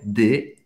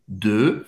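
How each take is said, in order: First: The vowel is said with unrounded lips. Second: The vowel is said with rounded lips. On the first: The speaker calls it wrong. "não é de" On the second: The speaker calls it right. "Faz a boca do O e fala E"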